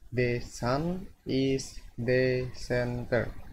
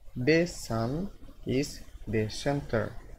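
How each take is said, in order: No difference in how they are said.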